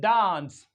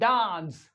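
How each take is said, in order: No difference in how they are said.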